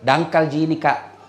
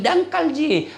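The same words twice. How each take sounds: First: Said in the usual way. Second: Slow. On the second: Retold or imitated. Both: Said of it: "Nah bilang".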